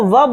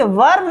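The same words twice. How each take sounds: First: "वर्ब" as vub, no R; correct silent R. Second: "वर्ब" with the R sounded, varb; wrong pronunciation. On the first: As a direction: drop the R from "वर्ब". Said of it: "आर है वो silent है". ("वर्ब" को वब, र silent) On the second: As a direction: pronounce the R in "वर्ब". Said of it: "नहीं". ("वर्ब" में र बोलते हुए) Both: Shown as a demonstration.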